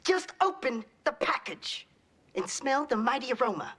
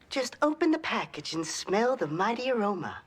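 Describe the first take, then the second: First: It is said with strong anger. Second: It is said calmly, without anger.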